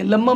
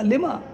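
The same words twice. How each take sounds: First: लम्मा with a doubled m, as the mistake; wrong reading demonstrated. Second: लिमा with "li" and a single m; correct reading demonstrated. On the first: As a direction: show the misreading "लम्मा". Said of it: "मत पढ़ना". (लम्मा, ग़लत पढ़ने का नमूना) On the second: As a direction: model "लिमा" as the correct word. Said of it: "ये लम्मा मत पढ़ना". (लिमा, सही पढ़ने का नमूना) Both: Shown as a demonstration.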